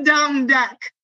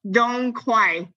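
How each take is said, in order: First: Botched "dong duck", ending like the bird; mistaken name. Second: Slow, careful "dong quai", last word rhyming with "why"; corrected name. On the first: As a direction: say "quai" wrongly as "duck" in "dong duck". Own wrong name set against right. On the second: Corrected name after the wrong one. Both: Real, not acted.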